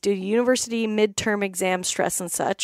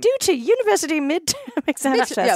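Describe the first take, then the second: First: It is read in the speaker's normal accent. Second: It is read in a put-on British accent.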